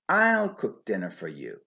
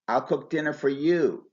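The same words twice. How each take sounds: First: The stress falls on the word I. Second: The stress falls on the word you. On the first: No one else will cook dinner. "I would stress the normally unstressed personal pronoun I" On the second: Dinner is cooked for no one else. "I would stress the personal pronoun you"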